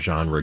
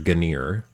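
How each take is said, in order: First: The word is said the usual way, zhahn-ruh. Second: The word is said like gainer, hard g.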